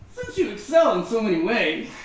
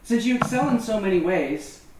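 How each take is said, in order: First: It is read in a mocking, sarcastic tone. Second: It is read in a plain, sincere tone.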